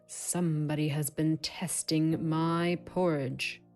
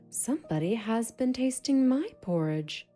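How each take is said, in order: First: It is said in a big, deep voice. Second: It is said in a medium-pitched voice.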